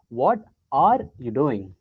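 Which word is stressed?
are. The word are is stressed. "focus on are"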